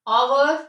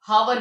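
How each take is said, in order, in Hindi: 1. शब्द सीधे एक स्वर की ध्वनि से शुरू होता है। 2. शब्द की शुरुआत में H की साफ़ ध्वनि सुनाई देती है। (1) "H क्या है, साइलेंट है" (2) "हावर भी नहीं पढ़ते"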